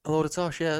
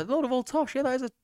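First: Said in the usual way. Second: Much higher playful repeat of tosh; high mock voice. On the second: Shown as a demonstration. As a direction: pitch it way up, teasing.

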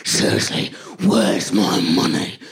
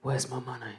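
First: Low, slow mock-livid demand; aggressive. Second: Low, very soft mock mugger; restrained menace. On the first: Livid mugger repeating his demand, slow aggressive growl. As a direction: imitate a mugger shaking with rage, drawing out each word. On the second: Mugger to an oblivious victim, low understated demand. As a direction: quietly imitate a mugger's demand. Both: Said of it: "a lot more aggressively".

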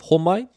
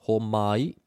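First: Said in the usual way. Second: "Homai" drawn out as ho - ma - i; split into syllables. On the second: Shown as a demonstration. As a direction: sound out "Homai" slowly for learners. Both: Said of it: "three syllables".

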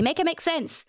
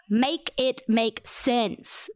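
First: Said in the usual way. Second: Each word of "Make it make sense" drawn out and separated; slow emphatic plea. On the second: Real, not acted. Podcaster demanding an explanation for the nominations, slow emphatic plea.

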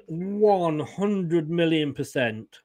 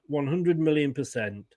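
First: One hundred million percent, drawn out slowly; slow emphatic. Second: Said in the usual way. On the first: Acted.

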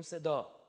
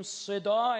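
First: Said in the usual way. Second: صدا with a strong, drawn-out "s" sound and a long final vowel; صدا said loud and drawn out, rising at the end; emphasized sibilant. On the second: Shown as a demonstration. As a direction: stretch صدا loudly to show off its "s".

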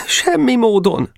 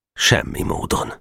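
First: High, slow, desperate plea; pleading question. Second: Low, subdued finality; firm refusal. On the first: Geréb asking to be taken back, pleading. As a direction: plead in a raised, drawn-out voice. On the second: Boka refusing to take Geréb back, firm. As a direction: close the matter without raising the voice. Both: A narrator's reading.

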